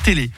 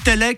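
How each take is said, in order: First: Both vowels are closed, like é. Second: Both vowels are open, like è. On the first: This is the less common way of saying it. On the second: This is the more common regional way of saying it.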